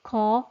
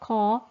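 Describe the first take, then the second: First: The k sounds heavy, with a narrowed throat. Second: The same.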